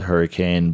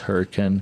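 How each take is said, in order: First: The word is said the way it is spelled. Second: The word is said with the local pronunciation. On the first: "I know it's spelled Hurricane" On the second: "but the pronunciation is Hurricane"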